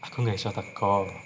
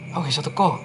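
First: It sounds soft and regretful. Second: It sounds harsh and impulsive.

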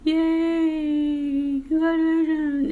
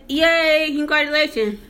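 First: It sounds flat, quiet and low. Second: It sounds excited and genuinely happy.

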